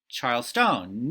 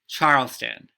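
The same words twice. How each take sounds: First: The stress falls on an unexpected syllable. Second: The stress falls on the expected syllable. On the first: The speaker calls it wrong. "those are wrong, that those don't sound correct" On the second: The speaker calls it right. "It would tell you to say"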